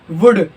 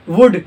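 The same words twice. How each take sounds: The two takes are said the same way.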